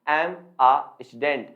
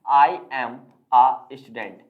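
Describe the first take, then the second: First: 'I am' is shortened into one syllable. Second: 'I am' is said as two full words. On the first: "बोलते समय आप use करेंगे केवल और केवल एम" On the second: "मैं बोलता हूं आई एम और अ स्टूडेंट"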